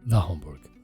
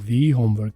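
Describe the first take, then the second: First: 'The' is said with a short 'uh' vowel. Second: 'The' is said with a long 'ee' vowel. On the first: This is the ordinary, routine way to say it. "Routine में" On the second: The word homework is being emphasised. "Homework के ऊपर stress देना चाहते हैं, जोर देना चाहते हैं"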